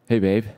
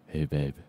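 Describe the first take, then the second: First: It is said in his normal voice. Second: It is said in a deep voice.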